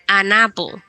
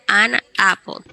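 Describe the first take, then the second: First: The two words run together as one. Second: The two words are said apart, not linked. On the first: The speaker calls it right. "Únalas como si fuesen una sola palabra. Decimos an apple" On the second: The speaker calls it wrong. "Diferente de ir an apple"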